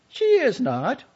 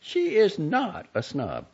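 First: Much higher, louder, stress on is; Jenny escalating, high and loud; heated denial. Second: Slow, higher, insistent denial; Jenny insisting her friend is no snob; firm denial. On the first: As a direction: shout it back, rising. Quarrel escalates. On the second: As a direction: plant your feet on each word. Quarrel over the sister. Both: A narrator's reading.

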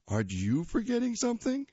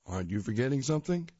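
First: Put-on higher, quick kid voice throwing it back; kid's teasing voice. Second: Quick, teasing dad question; dad's teasing voice. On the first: Tiger teasing his dad back, higher cheeky kid voice. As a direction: copy dad's line as a cheeky boy. Tiger repeats dad's line. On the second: Acted. Dad reminding Tiger, quick teasing dad voice. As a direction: nudge him like a knowing father.

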